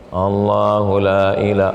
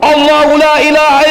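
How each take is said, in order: First: It is recited softly and weakly. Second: It is recited loudly and forcefully. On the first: The reader does not seem serious. The speaker calls it wrong. "baca pelan" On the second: The reader is serious about it. The speaker calls it right. "saya bacakan di telinga kanan dia kuat"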